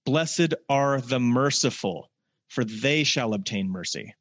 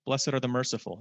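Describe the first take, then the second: First: Slow scripture reading. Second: Said in the usual way. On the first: Acted. Preacher telling the congregation to listen up, slow and solemn. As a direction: weigh every word of the promise. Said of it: "listen up". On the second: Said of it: "Let's talk about mercy".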